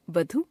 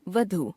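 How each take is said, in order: First: वधु ending on short उ; wrong pronunciation. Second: Said in the usual way. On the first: Shown as a demonstration. Teacher showing a common error, वधु with short last vowel. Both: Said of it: "अशुद्ध".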